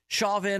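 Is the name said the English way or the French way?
English. The name is said with an English pronunciation.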